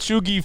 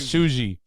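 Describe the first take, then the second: First: The middle consonant is a hard g. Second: The middle consonant sounds like a j. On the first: The speaker calls it right. "I said Chugi first" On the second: The speaker calls it wrong. "maybe the G is pronounced like a J"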